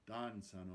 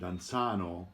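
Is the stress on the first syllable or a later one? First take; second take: first; later. First: The stress falls on the first syllable. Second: The stress falls on a later syllable. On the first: The speaker calls it right. "the accent is definitely on the first syllable" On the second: The speaker calls it wrong. "don't sing danzano"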